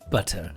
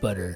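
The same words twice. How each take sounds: First: The middle t is a crisp t. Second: The middle t sounds like a soft d.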